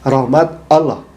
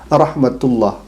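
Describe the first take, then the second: First: It is split into two separate words. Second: It is run together as one linked word. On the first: "justru orang ini mengatakan rahmat Allah" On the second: "tentu dia tidak keluh atau tidak susah melafalkan rahmatullah"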